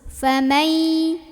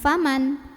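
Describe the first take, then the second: First: The n merges into a held nasal hum. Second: The n is pronounced clearly before the next sound. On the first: The speaker calls it right. "masuk. Famai, sambil tahan dulu dengungannya sampai berasa ke hidung" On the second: The speaker calls it wrong. "nun sukun gak terbaca jelas en, bukan faman"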